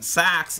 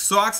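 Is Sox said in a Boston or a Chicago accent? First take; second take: Chicago; Boston. First: The vowel is raised toward a short a. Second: The vowel is open, Boston style. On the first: The speaker calls it right. "Sox is Chicago. Got to have that high, that short A" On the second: The speaker calls it wrong. "That's Sox is Boston"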